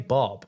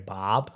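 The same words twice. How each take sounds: First: The word is said with an Australian vowel. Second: The word is said with an American vowel. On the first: "they say Bob" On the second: "Americans would say Bob"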